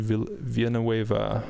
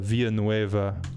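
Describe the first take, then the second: First: The name is said with English sounds. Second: The name is said with Spanish sounds. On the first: "I don't know if you guys pronounce it like that" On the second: "Villanueva in Spanish"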